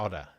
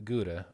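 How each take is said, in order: First: The word begins with an H-like sound. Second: The word begins with a hard G sound.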